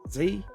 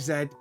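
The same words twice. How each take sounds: First: The letter is said the American way. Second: The letter is said the British way. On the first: "They say Z. ... it's very American" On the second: "We say Z"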